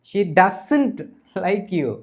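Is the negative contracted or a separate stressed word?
contracted. The negative is contracted and not stressed.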